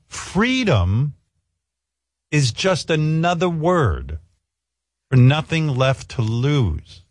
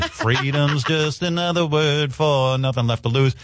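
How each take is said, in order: First: The line is spoken slowly and deliberately. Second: The line is spoken at a normal pace.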